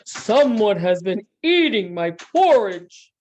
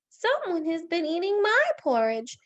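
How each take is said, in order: First: It is said in a big, deep voice. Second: It is said in a tiny, high voice. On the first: "in his big, great big voice" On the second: "in his wee little voice"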